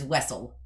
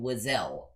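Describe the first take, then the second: First: The name is said as 'Wessel'. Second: The name is said as 'Wazell'. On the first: This is the version the speaker learned. The speaker calls it right. "I learned it as Wessel" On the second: This is the version used in a video game. The speaker calls it wrong. "Why does she do that? Her name is Wessel"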